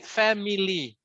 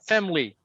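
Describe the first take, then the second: First: The middle vowel is pronounced as a full syllable. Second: The middle vowel is dropped, giving two syllables. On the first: The speaker calls it wrong. "You don't really need to say family, me, lee. The me, it's not right" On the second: The speaker calls it right. "It's family, family"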